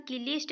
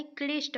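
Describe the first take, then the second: First: क्लिष्ट as "ki-lisht"; क्लिष्ट in two beats, ki-lisht; wrong split cluster. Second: क्लिष्ट as "klishta"; क्लिष्ट with no i after k; correct joined cluster. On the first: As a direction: put an i between k and l in क्लिष्ट. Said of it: "नहीं होता है". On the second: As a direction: join k straight to l in क्लिष्ट. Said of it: "होता है". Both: Shown as a demonstration.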